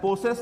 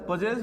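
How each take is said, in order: First: The middle consonant is a hissing s sound. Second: The middle consonant is a buzzing z sound.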